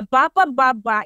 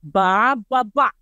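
First: Rising question on "Ba, ba, ba, ba"; asking ba ba ba. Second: "Ba, ba, ba" said as a settled answer; "Ba, ba, ba" as a calm reply. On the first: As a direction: ask if the lift goes down. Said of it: "in Filipino is a question". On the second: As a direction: answer yes like the lift man. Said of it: "he will answer you with this". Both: Shown as a demonstration.

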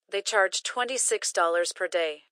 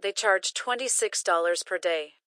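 No difference in how they are said.

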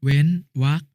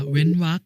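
First: เว้นวรรค split as "wen", pause, "wak"; syllable-by-syllable reading. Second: Said in the usual way. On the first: Shown as a demonstration. Brother showing the final consonant, syllable by syllable: เว้นวรรค. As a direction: put a gap inside เว้นวรรค. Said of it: "อ่านว่า". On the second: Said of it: "คำว่า".

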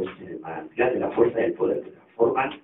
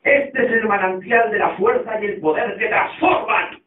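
First: Low, soft, unimpressed repeat; quiet, low-pitched deadpan; deadpan echo. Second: Slow, drawn-out declamation with raised pitch; grand, stretched-out sermon line; preacher's proclamation. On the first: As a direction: repeat it under your breath, unimpressed. Stanley flatly echoes the proclamation. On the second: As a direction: proclaim it like a zealot holding up the Bible. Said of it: "levantando la Biblia dijo". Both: Acted.

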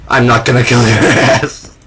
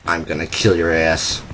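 First: Plain voice breaking into a laugh mid-line; laughing retraction. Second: Softer, lower menacing growl at an enemy; mock menacing threat. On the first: Real, not acted. Gamer retracting his threat at the walker, laughing. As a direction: take back the threat with a chuckle. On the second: Gamer threatening an enemy walker, mock menace. Threat then taken back.

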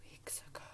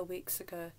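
First: Very soft, breath-only whisper; hushed repeat. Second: Said in the usual way. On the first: Real, not acted. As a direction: echo it under your breath. Hushed echo of own words.

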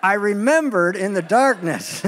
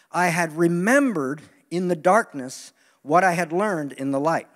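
First: Slow, chuckling through the words; laughing retry. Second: Slow, weighty, each word landed; slow emphasis. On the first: Preacher laughing at himself, trying the line again. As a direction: restart the line while laughing. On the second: Preacher savoring his profound line. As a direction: let the line sink in slowly. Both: Shown as a demonstration. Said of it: "Let me try that again".

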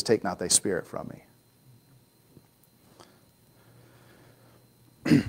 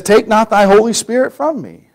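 First: The verse dropping "Holy", much softer; without holy, softer. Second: Said in the usual way. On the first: Shown as a demonstration. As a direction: quietly say "thy spirit" without "Holy". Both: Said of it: "I don't think he says holy".

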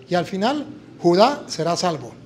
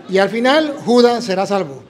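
First: "Judá" read with the stress on the final A, no S at the end; reading "Judá será salvo" properly, stress on the last syllable; correct reading. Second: "Judas" read with an S and the stress on the first syllable; imitating misreading. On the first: Shown as a demonstration. Nephew priest reading the verse correctly, "Judá" stressed on the A. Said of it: "tiene acento en la A". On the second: Uncle who can't read well misreads "Judas" for Judá. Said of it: "mi tío no sabía leer bien".

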